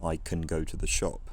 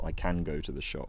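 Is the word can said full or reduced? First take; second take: reduced; full. First: The word can has a reduced vowel. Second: The word can has a full vowel.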